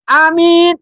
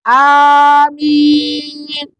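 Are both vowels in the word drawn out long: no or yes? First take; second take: no; yes. First: The two vowels are not both held long. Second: Both vowels are held long. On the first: It means honest. The speaker calls it wrong. "Artinya jujur. Juga salah" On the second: It is the proper response to a prayer. The speaker calls it right. "Yang betul adalah amin. Ini benar"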